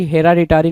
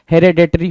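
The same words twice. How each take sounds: First: हेराडिटरी with a plain "a" after the r, he-ra-di-ta-ri; wrong pronunciation. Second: हेरेडिटरी with "e" after the r, he-re-di-tri; correct pronunciation. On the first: Teacher voicing the misspelt word, wrong pronunciation. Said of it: "हेराडिटरी नहीं होता". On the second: Teacher giving students the correct word, correct pronunciation. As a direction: say हेरेडिटरी cleanly as the right form. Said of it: "हेरेडिटरी होता है". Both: Shown as a demonstration.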